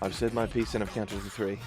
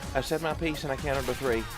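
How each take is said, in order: First: It is said in the speaker's ordinary accent. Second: It is said in a southern American accent. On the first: The speaker calls it wrong. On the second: The speaker calls it right.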